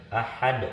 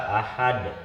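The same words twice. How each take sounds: No difference in how they are said.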